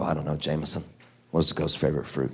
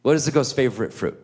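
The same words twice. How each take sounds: First: Low, soft and unenthused; resigned adult reply. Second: Lightly voiced small child; little Jameson. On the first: Retold or imitated. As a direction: humour the kid, quiet and low. Dad's resigned answer to the riddle. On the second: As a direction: imitate a kid finally getting the riddle out. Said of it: "So poor little Jameson".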